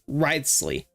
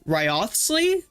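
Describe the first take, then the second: First: The 'Ryo' part is not fully enunciated. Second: The 'Ryo' part is fully enunciated. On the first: The speaker calls it right. "I think it's just pronounced Wriothesley" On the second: The speaker calls it wrong. "I used to enunciate the the Ryo part"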